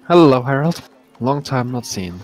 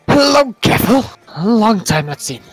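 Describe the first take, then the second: First: It is said in his normal voice. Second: It is said in a put-on dwarf voice.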